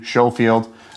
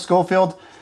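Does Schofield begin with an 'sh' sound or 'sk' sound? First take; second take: sh; sk. First: The word begins with an 'sh' sound. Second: The word begins with an 'sk' sound. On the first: The speaker calls it right. "Consensus was it's a silent K" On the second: The speaker calls it wrong. "not the Schofield"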